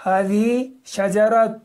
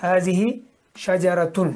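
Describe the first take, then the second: First: هذه شجرة drawn out slowly, higher and louder on شجرة; slow teaching stress. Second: Said in the usual way. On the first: Shown as a demonstration. Teacher showing students how to read شجرة, slow and stressed. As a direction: spell out شجرة slowly so the students hear every sound. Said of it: "تن means". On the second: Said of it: "اس کے بعد دیکھیے".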